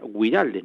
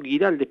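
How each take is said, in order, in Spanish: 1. Entre la g y la i hay un sonido 'w'. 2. Después de la g viene directamente el sonido i. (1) "al tener doble puntuación es, sería Guiraldes" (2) "todos decimos Ricardo Giraldes"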